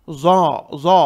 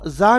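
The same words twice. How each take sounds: First: ज़ा heavy and dark, mouth full; thick za. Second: ज़ा light and unrounded; wrong thin za. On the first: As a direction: say ज़ा as a rounded zo. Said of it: "ज़ा भी मोटा पढ़ेंगे". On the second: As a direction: say ज़ा as za with an open a. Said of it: "ज़ा नहीं पढ़ेंगे". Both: Shown as a demonstration.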